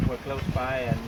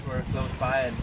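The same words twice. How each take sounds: The two takes are said the same way.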